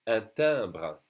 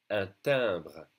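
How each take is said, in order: First: Un timbre with nasal un and in; French model word. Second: Un timbre repeated, nasal vowels kept; repeat for students. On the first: Teacher models Un timbre for learners. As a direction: say Un timbre clearly. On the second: Teacher repeats Un timbre for class. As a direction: say Un timbre again for copying. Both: Shown as a demonstration. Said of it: "repeat after me".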